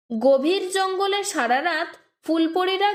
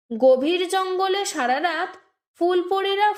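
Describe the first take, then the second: No difference in how they are said.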